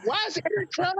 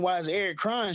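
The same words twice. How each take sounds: First: Very high, squeaky incredulous question; laughing disbelief. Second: Mildly puzzled dad's question. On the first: Dad retells daughter making a teenage boy cry, comically incredulous. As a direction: let the voice leap up in comic disbelief. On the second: Dad asks daughter about the boy she hurt, puzzled. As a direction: ask it with restrained concern. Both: Retold or imitated.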